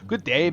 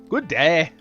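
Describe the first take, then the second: First: It is spoken in an Irish-Scottish accent. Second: It is spoken in a Southern American accent.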